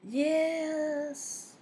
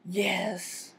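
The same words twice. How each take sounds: First: It sounds uncertain. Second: It sounds exasperated and reluctant. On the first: "shows uncertainty" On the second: "This really means no or exasperation"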